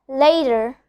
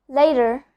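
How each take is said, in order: The two takes are said the same way.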